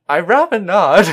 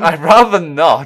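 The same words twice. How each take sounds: First: It is said in an imitated character voice. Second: It is said in the speaker's normal voice. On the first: The speaker calls it right. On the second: The speaker calls it wrong.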